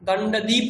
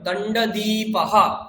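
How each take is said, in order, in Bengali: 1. শব্দটি শেষে কোনো শ্বাসযুক্ত রেশ ছাড়াই শেষ হয়। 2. শব্দটি শেষে একটি শ্বাসযুক্ত 'ha' রেশ দিয়ে শেষ হয়। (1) "দণ্ডদ্বীপ নয়"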